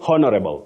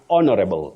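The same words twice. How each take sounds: First: The H at the start is pronounced. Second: The H at the start is silent. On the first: The speaker calls it wrong. "don't say honorable" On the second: The speaker calls it right. "it's honorable"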